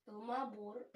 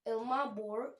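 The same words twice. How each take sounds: First: "Ilmabor" in a German accent, with a rolled r at the end. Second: Said in the usual way. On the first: Shown as a demonstration. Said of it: "uh, German accent". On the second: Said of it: "I'm just trying to say it right".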